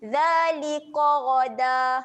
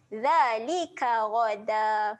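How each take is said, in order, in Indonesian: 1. Bunyi k itu berat dan tebal. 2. Bunyi k itu ringan dan tipis.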